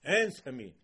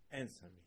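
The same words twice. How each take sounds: First: Loud brazen "Answer me"; bold, loud "Answer me" to God; chutzpah. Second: Low, soft "Answer me" without force; subdued "Answer me" with no chutzpah; low quiet request. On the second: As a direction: ask it quietly, held back. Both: Retold or imitated. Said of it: "spoke to HaKadosh Baruch Hu with chutzpah".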